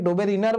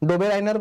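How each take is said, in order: First: The second part is said like 'ree-ner'. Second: The second part is said like 'rye-ner'. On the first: Many other people pronounce it this way. "অনেকে ডোবে রিনার বলে উচ্চারণ করে" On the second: This is the speaker's own pronunciation. "আমি ডোবে রাইনার বলে উচ্চারণ করি"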